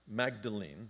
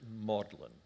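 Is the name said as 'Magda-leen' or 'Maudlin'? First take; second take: Magda-leen; Maudlin. First: It is said as 'Magda-leen', as spelled. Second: It is said as 'Maudlin', like 'sentimental'. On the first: The speaker calls it wrong. "it looks like it should be Magdalene or Magdalena, but they don't say it that way" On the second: The speaker calls it right. "they pronounce it Magdalen, just like the word for sentimental"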